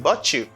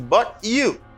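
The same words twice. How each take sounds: First: The words are linked into a ch sound. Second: The words are said separately with a t sound.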